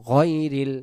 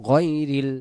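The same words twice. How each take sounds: Both takes have the same delivery.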